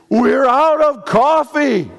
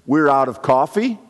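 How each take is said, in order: First: High, loud, slow alarm over nothing; panicked crisis person. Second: Said in the usual way. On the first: Shown as a demonstration. Preacher mimicking a crisis person, high and loud panic. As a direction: blow a small problem into a disaster.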